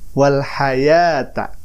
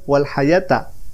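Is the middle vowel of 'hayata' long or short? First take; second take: long; short. First: The middle vowel is held long. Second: The middle vowel is cut short. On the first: The speaker calls it right. "Seharusnya seperti itu" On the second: The speaker calls it wrong. "si bapak ini dipendekkan"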